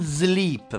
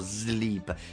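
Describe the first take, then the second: First: The first sound is a buzzing z. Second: The first sound is a long hissing s. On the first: The speaker calls it wrong. "non sleep, perché è brutto" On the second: The speaker calls it right. "sempre S lunga"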